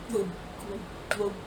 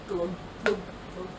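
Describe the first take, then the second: No difference in how they are said.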